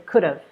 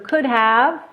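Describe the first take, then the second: First: The H sound is dropped, keeping the V. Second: Both words are said fully with H and V.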